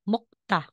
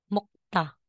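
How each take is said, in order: The two takes are said the same way.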